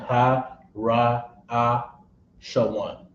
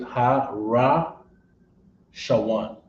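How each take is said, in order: First: Each sound is said separately with breaks. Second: The sounds run together smoothly without breaks. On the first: The speaker calls it wrong. "as opposed to saying" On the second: The speaker calls it right. "You could say"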